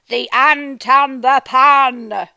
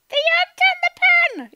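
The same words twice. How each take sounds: First: It is said in a dramatic, angry voice. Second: It is said in a tiny ant voice.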